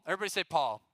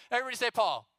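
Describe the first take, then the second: First: Said in the usual way. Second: Higher, energetic call to the crowd; rallying shout. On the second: Real, not acted. Youth speaker retrying a weak audience response, rallying shout. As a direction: shout it out to get a bigger response.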